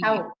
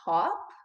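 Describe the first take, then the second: First: The vowel sounds like cow. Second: The vowel does not sound like cow. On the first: The speaker calls it right. "like cow with a P" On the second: The speaker calls it wrong.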